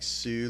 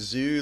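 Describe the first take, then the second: First: The name begins with a 'ts' sound. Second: The name begins with a plain 'z' sound. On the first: "like Tsunami?" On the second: "I've always heard Zoo, like, almost like Z O O"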